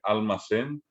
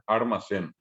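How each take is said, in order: First: The first syllable has an L sound. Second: The first syllable has an R sound. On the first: It is the Spanish pronunciation. "al que habla castellano no le cuesta nada decir" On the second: It is the Guaraní pronunciation. "y decir después almacén"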